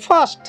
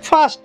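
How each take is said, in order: The two takes are said the same way.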